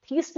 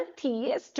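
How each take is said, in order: First: थीस्ट said as one syllable, long ee, higher; wrong pronunciation. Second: थियस्ट with two syllables, thi-yast, softer; right pronunciation. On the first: Teacher showing students the wrong way to say थीस्ट. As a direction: show the mistake: थीस्ट as theest. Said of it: "थीस्ट नहीं बोलना". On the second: Teacher correcting students, softly saying थियस्ट properly. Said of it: "थियस्ट बोलना". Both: Shown as a demonstration.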